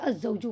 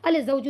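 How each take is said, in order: First: The l is silent; the z is doubled. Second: The l is clearly pronounced before the z. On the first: The speaker calls it right. "बल्कि अज़्ज़ौजु कहा" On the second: The speaker calls it wrong. "अल ज़ौजु नहीं कहा"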